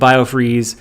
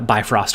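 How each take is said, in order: First: It is said as bio-freeze. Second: It is said as bi-frost. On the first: The speaker calls it wrong. "so we were saying biofreeze" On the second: The speaker calls it right. "not once did we say bi uh, bifrost correctly"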